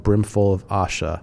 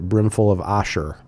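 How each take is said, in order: First: The last word ends in a plain vowel. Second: The last word ends with an added r sound.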